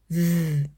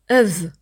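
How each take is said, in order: First: The W sound is said alone. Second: The W sound has an added vowel. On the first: The speaker calls it right. "anstatt W" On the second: The speaker calls it wrong. "Sag auch zum Beispiel nicht Öv"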